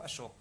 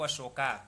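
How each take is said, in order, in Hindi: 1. नाम का अंत व्यंजन k पर होता है। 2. नाम का अंत जोड़ा गया स्वर a से होता है। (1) "अशोक को अशोक कहेंगे" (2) "ये अंग्रेजी शैली है"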